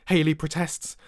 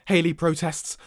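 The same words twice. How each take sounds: The two takes are said the same way.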